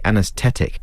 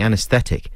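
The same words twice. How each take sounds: First: The middle 'th' becomes a plain t. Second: The middle 'th' sound is pronounced. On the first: The speaker calls it wrong. "Put the H back in there" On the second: The speaker calls it right. "instead of saying anaesthetic"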